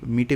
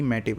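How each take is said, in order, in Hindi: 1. m के बाद का स्वर लंबा 'ee' है। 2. m के बाद का स्वर खुला 'a' है। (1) "मीटिव नहीं"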